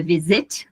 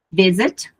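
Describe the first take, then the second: First: "visit" wrongly stressed on "sit"; wrong last-syllable stress. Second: "visit" stressed on "vi"; "visit" said correctly, strong syllable first. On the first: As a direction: hit the second syllable of "visit". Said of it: "não é". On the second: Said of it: "não é visit". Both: Shown as a demonstration.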